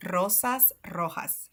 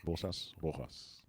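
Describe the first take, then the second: First: Slow "Rosas rojas", trilled r's; rolled R. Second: "Rosas rojas" with English r, no trill; unrolled r. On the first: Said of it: "roll the R". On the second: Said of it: "without the rolling". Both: Shown as a demonstration.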